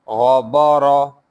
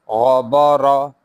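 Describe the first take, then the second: Both takes have the same delivery.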